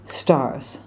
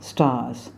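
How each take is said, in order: First: The R sound is clearly pronounced. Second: The R sound is dropped. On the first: The speaker calls it right. "it's stars" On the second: The speaker calls it wrong. "not stars"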